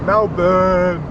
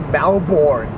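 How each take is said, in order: First: The second syllable sounds like burn. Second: The second syllable sounds like born. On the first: This is how locals say it. The speaker calls it right. "Burn as in ah, on fire, not born" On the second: This is how Americans say it. The speaker calls it wrong. "Why do Americans say Melbourne?"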